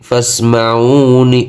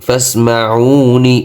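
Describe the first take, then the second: No difference in how they are said.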